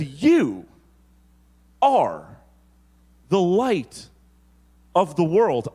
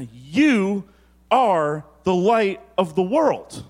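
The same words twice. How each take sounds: First: "You... are... the light... of the world" with a pause after each part; broken into pauses. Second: "You are the light of the world" said slowly with a lift on "You"; measured, slow delivery. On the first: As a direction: give "You", "are" and "the light" a beat of their own. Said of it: "He says". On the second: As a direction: let "You" ring out, then slow through "the light of the world". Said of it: "Then Jesus looks at you and says". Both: Shown as a demonstration.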